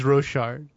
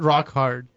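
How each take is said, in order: First: The name does not sound like rock hard. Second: The name sounds like the words rock hard. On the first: "Also known as Rochard" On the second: "I prefer to pronounce it Rock Hard"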